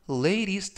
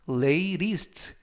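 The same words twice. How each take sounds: First: The middle t is softened toward an r. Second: The middle t is a hard, crisp t. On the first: The speaker calls it right. "t 발음을 부드럽게 t가 아니라 르" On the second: The speaker calls it wrong. "latest가 아니라"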